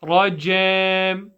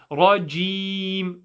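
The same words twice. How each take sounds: First: "rajam" with a slack, open vowel in the second syllable; passive vowel, RAJAM. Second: "Rajim" with a long clear ee; tight, held i in "Rajim"; active tone, RAJIM. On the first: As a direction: let the ee drop to "jem" in "rajam". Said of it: "what we are not praying is rajam". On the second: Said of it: "pray in an active tone". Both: Shown as a demonstration.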